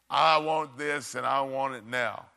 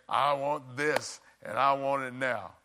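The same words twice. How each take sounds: The two takes are said the same way.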